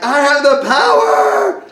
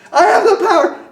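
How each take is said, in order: First: High, loud, drawn-out battle cry; retold scream. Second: Very high, loud yell; retold scream. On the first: Kid with eyes shut tight willing a transformation, screaming. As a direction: re-enact a child straining to summon superpowers. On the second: Kid trying once more to turn into He-Man, screaming higher. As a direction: push the mock battle cry into a higher shriek. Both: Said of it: "and so I screamed it".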